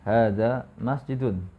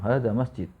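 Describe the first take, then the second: First: The word ends with a full -un ending. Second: The word ends abruptly without the -un ending. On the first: "dibaca ya harokat jelas lengkap" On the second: "kita bisa baca sukun"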